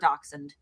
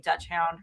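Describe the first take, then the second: First: The word ends with a 'hund' sound. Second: The word ends with a 'hound' sound. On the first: "do you guys say Dutch hound or dachshund?" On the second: "do you guys say Dutch hound or dachshund?"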